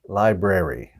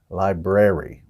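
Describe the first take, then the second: First: The second R sound is clearly pronounced. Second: The second R sound is clearly pronounced.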